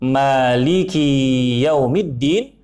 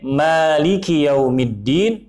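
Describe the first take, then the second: First: The vowel after the k is long. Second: The vowel after the k is short. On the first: I am the king who rules the Day of Judgment. The speaker calls it wrong. "jika dibaca panjang" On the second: The one who rules the Day of Judgment. The speaker calls it right. "Jika dibaca pendek"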